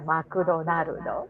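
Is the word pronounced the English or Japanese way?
Japanese. It is said with Japanese sounds, as ma-ku-do-na-ru-do.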